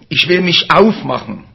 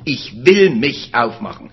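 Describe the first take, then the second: First: The sentence is read with neutral emphasis. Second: The word will is given strong emphasis.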